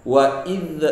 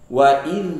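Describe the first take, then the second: No difference in how they are said.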